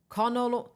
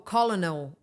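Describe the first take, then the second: First: "Colonel" said KER-nel, two syllables, the L dropped; self-correcting "Colonel" to KER-nel; corrected pronunciation. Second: "Colonel" said as KOL-o-nel, three syllables with the L; stumbling over "Colonel" as KOL-uh-nel; spelling-out mispronunciation. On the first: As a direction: fix "Colonel" to sound like kernel. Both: Real, not acted. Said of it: "My English is really bad today".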